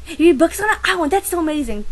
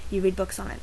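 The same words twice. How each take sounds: First: Mock amazed, high and loud; amazed classmate. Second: Said in the usual way. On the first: Classmate echoing her answer, mock amazed. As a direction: gush like a clueless kid. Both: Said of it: "So I tell them".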